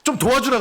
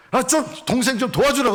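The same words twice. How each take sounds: First: Much higher, louder angry demand; angry Martha. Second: Much higher, louder reproach; scolding Martha. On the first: Martha angrily demanding that Jesus make her sister help. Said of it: "예수님께도 분노를 합니다". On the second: Martha reproaching Jesus about her sister. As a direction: nag Jesus sharply. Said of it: "예수님께 타박을 합니다". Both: Retold or imitated.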